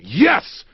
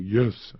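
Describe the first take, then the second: First: It is yelled loudly and strongly. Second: It is said quietly and weakly.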